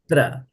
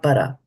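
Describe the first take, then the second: First: The p and r are joined with no vowel. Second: A short vowel separates the p and r. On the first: The speaker calls it right. "pra, right?" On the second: The speaker calls it wrong. "And not para"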